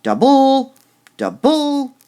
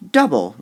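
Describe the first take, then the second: First: DouBLE, the BLE high, loud and held; overdone final syllable on each double; stress on last syllable. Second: DOUble, loud first syllable, falling away; stress on first syllable. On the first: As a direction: wrongly punch the end of double each time. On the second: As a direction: punch the DOU in double. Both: Shown as a demonstration. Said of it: "You wouldn't say double".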